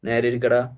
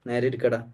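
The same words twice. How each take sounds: First: It is said louder, in a sharper voice. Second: It is said in a calm, normal voice.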